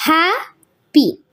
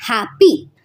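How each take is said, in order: First: happy with है heavy and P soft and falling, slowly; stress on HAP. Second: happy, है strong, P dropping away; stress on HAP. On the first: Teacher showing students the stress in happy, slow and falling. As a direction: hit है in happy, fade the end. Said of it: "यहाँ पर जीएआर में हमारा stress ज्यादा". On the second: Teacher repeating happy for students, falling beat. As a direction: punch है, let P fall. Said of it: "यहाँ पर stress ज्यादा हो रहा है". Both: Shown as a demonstration.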